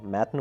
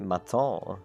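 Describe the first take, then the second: First: The name is pronounced the plain English way. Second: The name is pronounced the French way. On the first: The speaker calls it right. "Matten was like the first impulse I had" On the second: The speaker calls it wrong.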